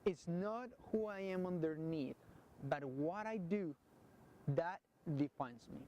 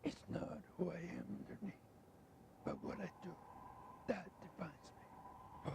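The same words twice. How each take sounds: First: It is said in a normal voice. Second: It is said in Batman's deep, gruff voice.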